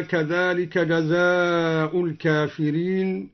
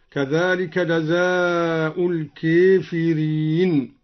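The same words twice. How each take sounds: First: Said in the usual way. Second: الكافرين as "al-keefireen", slowly recited; slow recitation, alif of الكافرين tilted towards ya; imala after kaf. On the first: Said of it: "أمال الألف بعد الكاف". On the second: Shown as a demonstration. Teacher showing al-Duri's imala, الكافرين as "al-keefireen". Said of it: "أمال الألف بعد الكاف هكذا".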